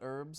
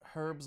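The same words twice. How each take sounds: First: The word is said a non-British way. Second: The word is said the British way. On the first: "not herbs?" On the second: "British say herbs"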